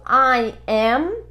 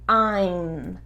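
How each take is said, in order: First: Said as two separate full words. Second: Said contracted into one short syllable.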